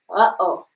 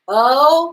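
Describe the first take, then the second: First: A glottal stop breaks the two vowels apart. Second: The vowels glide together without a glottal stop. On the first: "that's me putting a, an okina, a glottal stop in between the uh and the o" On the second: "If I didn't have that, it would be oh"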